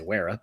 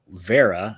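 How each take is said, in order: First: The name is said the American way. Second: The name is said the German way. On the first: This is how an American would say it. "I would say Wera, but you know, because I'm American" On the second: This is how the company says its own name. "I guess they pronounce it"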